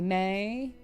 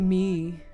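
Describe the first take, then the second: First: The name rhymes with 'day'. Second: The name rhymes with 'see'. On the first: The speaker calls it right. "People call me May" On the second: The speaker calls it wrong. "They don't call me me. It's stupid and illiterate"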